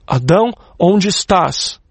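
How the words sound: It sounds like a stern, threatening policeman.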